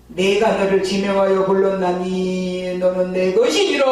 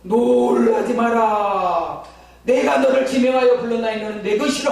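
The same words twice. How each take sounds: First: Solemn, weighty divine pronouncement, a touch louder; voice of God. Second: Voice of God. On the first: God speaking to the young believer, solemn and weighty. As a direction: intone it like a heavenly calling. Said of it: "막 이러시는데". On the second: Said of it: "막 이러는 거예요". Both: Retold or imitated.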